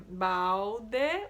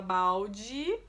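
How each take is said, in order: First: Balde with a clear final E, bawde; balde ending in E. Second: Balde said slowly, final de as dʒi; balde ending in I. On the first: Teacher shows balde ending on E. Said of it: "o último som é E". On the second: Teacher shows the spoken balde ending in I. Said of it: "o último som que a criança vai ouvir é I". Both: Shown as a demonstration.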